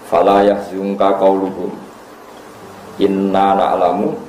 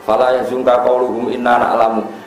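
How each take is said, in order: First: There is a pause after qauluhum. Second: It runs on without a pause after qauluhum. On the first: The second part is God's own speech. The speaker calls it right. "Itu menurut orang-orang alim itu harusnya wakof" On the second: The second part seems to be the disbelievers' speech. The speaker calls it wrong. "Kalau kamu wasolkan"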